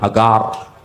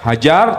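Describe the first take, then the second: First: The middle consonant is a hard G sound. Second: The middle consonant is a J sound. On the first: This is how Hebrew speakers say the name. "nggak bisa ngomong huruf huruf jim, nggak bisa. Jadi G" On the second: This is how Arabic speakers say the name. "bisanya ngomong huruf J"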